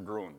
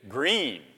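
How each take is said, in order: First: It is said as groo-en, without a final vowel. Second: It is said in one syllable, like green. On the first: The speaker calls it wrong. "or Gruen" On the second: The speaker calls it right. "Green. Neither one"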